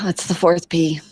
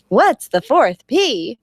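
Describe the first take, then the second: First: It is asked flatly, with a sigh. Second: It is asked with enthusiasm.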